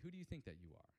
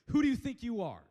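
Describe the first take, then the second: First: The question sounds warm and curious. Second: The question sounds harsh and accusing. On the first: The speaker is kindly inviting the listener to reflect. The speaker calls it right. "He probably says it a little bit more like" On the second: The speaker is shaming the listener. The speaker calls it wrong. "Jesus doesn't say it like"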